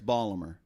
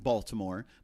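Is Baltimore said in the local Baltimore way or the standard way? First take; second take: local; standard. First: It is said in the local Baltimore accent. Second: It is said with the standard pronunciation.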